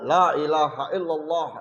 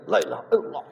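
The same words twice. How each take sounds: First: It is said faster, starting to rush. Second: It is rushed and slurred, barely articulated. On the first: "tiga puluh tiga yang kedua lah mulai ngebut" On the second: "tiga puluh tiga yang ketiga lah itu tinggal geleng"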